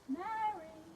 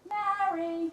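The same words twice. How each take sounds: First: The name is said softly. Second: The name is said loudly.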